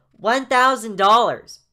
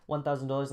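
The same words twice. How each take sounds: First: Slow, high, booming announcement; loud high kid. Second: Said in the usual way. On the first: Acted. Jaden telling Miss Walker the amount, loud kid voice. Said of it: "making his voice so inconsistent". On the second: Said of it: "Anyway, so Jane says".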